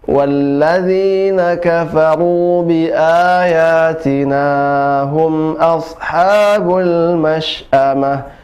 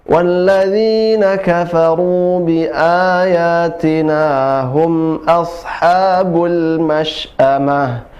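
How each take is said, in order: No difference in how they are said.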